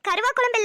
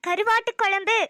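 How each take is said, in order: First: The first word is clipped to karuva. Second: The first word is said fully as karuvattu. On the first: The speaker calls it wrong. "கருவா குழம்பு இல்ல" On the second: The speaker calls it right.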